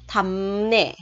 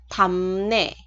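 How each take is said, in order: Both takes have the same delivery.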